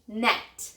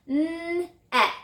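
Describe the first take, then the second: First: Said in the usual way. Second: 'N-et' drawn out sound by sound on a high note; stretched word. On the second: Shown as a demonstration. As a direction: hold the n and e of 'N-et', then release the t. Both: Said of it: "I heard eh in the middle".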